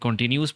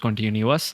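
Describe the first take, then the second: First: The word is said with three syllables. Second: The word is said with four syllables. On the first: "जिसको हम कॉन्टीन्यूस पढ़ते हैं" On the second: "but the actual pronunciation is कॉन्टीन्यूअस"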